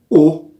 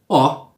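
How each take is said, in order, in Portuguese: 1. A vogal é pronunciada fechada. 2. A vogal é pronunciada aberta. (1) "E o O fechado?" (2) "E o O aberto, como seria?"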